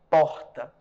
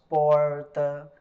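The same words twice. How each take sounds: First: The R is not retroflex, Nordeste style. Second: The R is retroflex, Centro-Oeste style.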